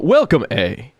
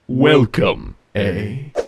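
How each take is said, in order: First: It is said in a natural regular voice. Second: It is said in a robotic put-on voice.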